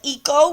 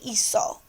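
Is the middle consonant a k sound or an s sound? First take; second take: k sound; s sound. First: The middle consonant is a hard k sound. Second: The middle consonant is an s sound. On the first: The speaker calls it wrong. "so we don't say" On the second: The speaker calls it right. "we say"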